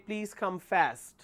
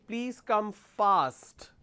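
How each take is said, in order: First: It is said in an American accent. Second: It is said in a British accent. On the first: "They say" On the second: "For example"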